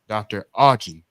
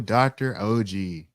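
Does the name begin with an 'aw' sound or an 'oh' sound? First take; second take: aw; oh. First: The name begins with an 'aw' sound. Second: The name begins with an 'oh' sound. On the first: The speaker calls it right. "I had to do it right for the one time" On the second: The speaker calls it wrong. "I told them it was Achi"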